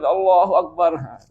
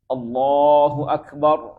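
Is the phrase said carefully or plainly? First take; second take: plainly; carefully. First: It is said plainly, without extra care. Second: It is said slowly with careful, elaborate articulation. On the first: Praying alone with no one watching. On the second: Showing off because in-laws are watching.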